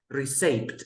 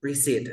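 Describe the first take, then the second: First: Receipt mispronounced as "ree-SAYPT"; receipt said "ri-saypt", as a mistake; wrong pronunciation. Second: Receipt as "ri-SEET", no P; receipt modelled with a long "ee" and silent P; correct silent P. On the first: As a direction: sound the P in receipt, with an "ay" vowel. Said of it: "It's not receipt". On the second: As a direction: drop the P from receipt. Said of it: "We say". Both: Shown as a demonstration.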